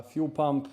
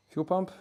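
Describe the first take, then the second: First: Said in the usual way. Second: "fuel pump?" asked with pitch jumping high on "pump"; puzzled question. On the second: Shown as a demonstration. Listing his car mods, he double-checks himself with a high questioning rise on "pump". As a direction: echo "fuel pump?" as a question, rising steeply on "pump".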